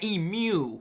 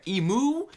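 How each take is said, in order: First: The second syllable rhymes with pew. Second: The second syllable rhymes with moo. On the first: "like pew" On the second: "like a cow"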